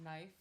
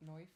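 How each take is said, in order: First: Said in the usual way. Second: Soft Australian "knife", said "noif"; attempted Aussie oi in "knife"; Australian accent. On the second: Shown as a demonstration. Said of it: "Their I's kinda sounds like O's".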